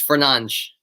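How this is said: The name is said the Portuguese way. The speaker calls it right. "in Portuguese it's Fernandes"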